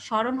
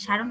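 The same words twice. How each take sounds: First: স্মরণ as "sho-ron", without the m; correct pronunciation. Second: সারণ with an open "aa"; misspelt pronunciation. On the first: Teacher correcting the misprint, স্মরণ said "sho-ron". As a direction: round the first vowel of স্মরণ to "sho". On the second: Teacher reading out the misprint, সারণ said with aa. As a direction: say সারণ as "sha-ron". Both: Shown as a demonstration. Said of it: "সারণ হবে না, স্মরণ হবে".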